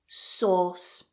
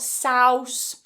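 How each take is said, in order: First: The vowel is one steady aw sound. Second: The vowel glides like the sound in house. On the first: The speaker calls it right. "Just one vowel sound there" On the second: The speaker calls it wrong. "not souse"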